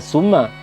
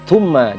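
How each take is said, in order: First: The word begins with a plain s sound. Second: The word begins with a soft th sound. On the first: The speaker calls it wrong. "jangan kita baca summa" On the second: The speaker calls it right. "itu sa"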